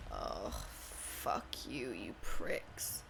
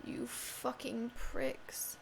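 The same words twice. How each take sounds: First: Slow, much lower monster growl; mock-demonic snarl at the enemies; growled curse. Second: Slow hissed whisper; mock-menacing whisper; whispered curse. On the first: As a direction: drag the curse out low like a beast. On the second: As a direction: breathe the insult out slow and secret. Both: Cursing game enemies.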